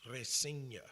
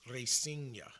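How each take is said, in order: Both takes have the same delivery.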